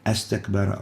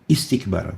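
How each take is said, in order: First: The word begins with an a vowel. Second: The word begins with an i vowel. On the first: The speaker calls it wrong. "We don't say astakbara" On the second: The speaker calls it right. "it always comes with a kasra"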